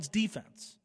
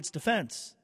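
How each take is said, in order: First: It is said the way basketball uses it. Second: It is said the way hockey uses it. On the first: This is the word as used in basketball. "In basketball" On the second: This is the word as used in hockey.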